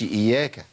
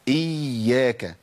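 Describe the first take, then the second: First: The y sound is single and short. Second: The y sound is doubled and held longer. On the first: The speaker calls it wrong. "ما اقولش اياك" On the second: The speaker calls it right. "يبقى اقول ايه؟ اياك"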